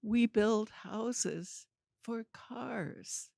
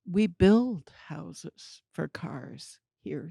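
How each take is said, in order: First: Slow, spelled-out restatement; patient, stretched-out explanation; slow, deliberate insistence. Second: Said in the usual way. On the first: Retold or imitated. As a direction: spell it out slowly for someone who didn't get it. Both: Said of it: "every time I said it, it was more ridiculous".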